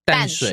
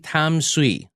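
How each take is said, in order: First: The name is said with Mandarin sounds and tones. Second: The name is said with English-style sounds. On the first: "if you know the proper pronunciation for the city, say it properly" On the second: "You don't have to say Tamsui"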